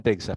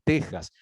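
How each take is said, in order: First: "Texas" said "TEK-sas", x as ks. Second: "Texas" said "TEH-has", x as Spanish j; Texas with jota. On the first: Teacher cites the written name to students, "Texas" with ks. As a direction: pronounce the x in "Texas" as a hard ks. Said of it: "se pronunciaba como J". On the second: Teacher shows the old Spanish sound, "Texas" with a jota. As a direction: pronounce the x in "Texas" as a throat fricative. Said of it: "esto se pronunciaba como J". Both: Shown as a demonstration.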